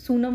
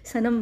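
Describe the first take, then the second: First: The first vowel is a long 'oo' sound. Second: The first vowel is a short 'uh' sound. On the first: "सुशांत के सू के उसके हिसाब से करेंगे तो सूनम" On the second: "S, यू और N को सन के हिसाब से"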